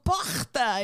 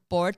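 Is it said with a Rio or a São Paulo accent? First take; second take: Rio; São Paulo. First: It is said with a Rio accent. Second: It is said with a São Paulo accent.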